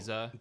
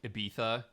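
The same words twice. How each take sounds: First: It is said with a Mexican Spanish accent. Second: It is said with a Spain Spanish lisp.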